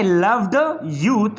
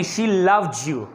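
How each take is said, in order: First: Said in the usual way. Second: "loved you" joined as "lov-ju"; j liaison. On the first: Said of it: "ये जो ड आवाज़ है". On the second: Shown as a demonstration. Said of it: "तो आप कहेंगे".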